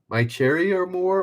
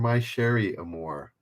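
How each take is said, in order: First: The second word begins with a 'ch' sound. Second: The second word begins with a 'sh' sound. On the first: The speaker calls it wrong. "I don't think it's Cherry" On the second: The speaker calls it right. "I would think it's Sherry"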